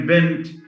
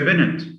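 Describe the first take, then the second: First: The final two consonants are said together. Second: A vowel is inserted between the final consonants.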